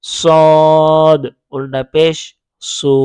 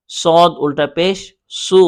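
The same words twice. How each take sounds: First: Very slow stretched chant, letter name held long; drawn-out spelling. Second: Brisk, even spelling without stretching; quick spelling demo. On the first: Teacher drilling the letter for learners, very slow stretched chant. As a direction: stretch each part out slowly. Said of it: "তখন আপনি বানান করে পড়েন". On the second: Teacher showing how to spell a hard letter, brisk and even. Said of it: "তখন ওটা বানান করে পড়বেন". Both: Shown as a demonstration.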